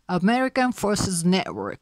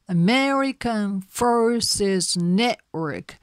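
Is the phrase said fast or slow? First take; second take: fast; slow. First: The phrase is spoken at a faster pace. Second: The phrase is spoken at a slow pace.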